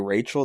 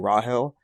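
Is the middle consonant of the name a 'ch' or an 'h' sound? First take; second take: ch; h. First: The name has a 'ch' sound in the middle. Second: The name has an 'h' sound in the middle. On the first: This is the usual form of the name. "they don't say Rachel" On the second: This is an early translated form of the name. "they say Rahel"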